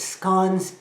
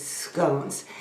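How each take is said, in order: First: The word is pronounced the English way. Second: The word is pronounced the American way. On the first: "the English way of saying it is scones" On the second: "the American way is scones"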